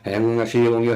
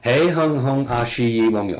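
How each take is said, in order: First: It is spoken very fast, blurring together. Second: It is spoken at a moderate, clearer pace.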